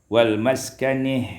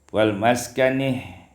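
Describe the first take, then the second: No difference in how they are said.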